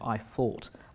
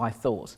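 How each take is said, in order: First: The th sound is replaced by another sound. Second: The th sound is pronounced as a normal th. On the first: This is the local twang once taken for a speech impediment. "T H was pronounced as" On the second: This is the standard pronunciation. "as opposed to"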